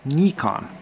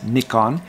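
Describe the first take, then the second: First: It is pronounced the Japanese way. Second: It is pronounced the Commonwealth way. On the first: "here in Japan, it is called" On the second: "in the, I guess the Commonwealth countries, the preferred pronunciation is"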